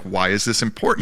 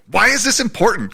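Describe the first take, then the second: First: It sounds sincere and genuinely curious, really asking. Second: It sounds dismissive and rhetorical, not really asking. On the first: The asker genuinely wants to know the reason. "in the earnest" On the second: The asker wants to move past the topic. "in the like rhetorical"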